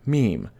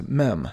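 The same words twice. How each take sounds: First: Meme said meem; correct pronunciation. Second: Meme said mem; common mispronunciation. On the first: Teacher showing viewers the right way. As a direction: say meme rhyming with team. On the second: Teacher showing viewers the wrong way. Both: Shown as a demonstration. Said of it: "often mispronounced as mem".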